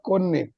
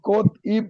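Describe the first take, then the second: First: A doubled n sound links the parts. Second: A t sound comes before a separate ip. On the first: The speaker calls it right. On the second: The speaker calls it wrong.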